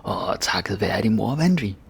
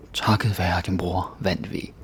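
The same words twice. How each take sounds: First: Emotional delivery. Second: Said in the usual way. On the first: Shown as a demonstration. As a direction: pour feeling into it, rising to the win. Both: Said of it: "let's put some emotion into it".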